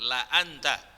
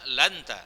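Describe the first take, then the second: First: A glottal stop separates la from anta. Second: La runs into anta with no glottal stop. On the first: The speaker calls it right. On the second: The speaker calls it wrong.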